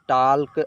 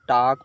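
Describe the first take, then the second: First: The L sound is pronounced. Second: The L sound is left out. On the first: The speaker calls it wrong. "इसे टाल्क और इसे याल्क नहीं पढ़ेंगे" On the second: The speaker calls it right. "टाक पढ़ेंगे"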